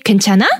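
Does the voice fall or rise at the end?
rise. The pitch rises at the end. It asks whether the other person is okay. "You're asking the person, are you okay?"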